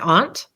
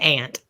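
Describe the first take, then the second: First: It is said in a neutral accent. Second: It is said in an Oklahoma accent.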